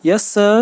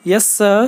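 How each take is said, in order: First: Put-on higher and louder, tearful boy; weeping. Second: Put-on higher, louder nervous boy; stammering. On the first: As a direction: answer through tears, lightly voiced. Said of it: "weeping bitterly". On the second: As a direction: stammer it out, a touch frightened. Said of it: "stammered the boy". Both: A narrator's reading.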